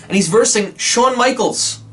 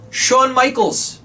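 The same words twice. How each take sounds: First: Said in the usual way. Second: Shawn Michaels stretched out slow and higher; announcer stretching out "Shawn Michaels"; drawn-out announcer name. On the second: Shown as a demonstration. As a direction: say "Shawn Michaels" slowly, like ring-announcing him. Dramatic repeat of the name.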